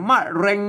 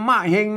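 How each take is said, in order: First: The second syllable begins with an r sound. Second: The second syllable begins with an h sound. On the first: This is the standard Thai reading. "ภาษาไทยมะเร็ง" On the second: This is the Lanna reading. "ภาษาละนาวน่ะมะเฮง"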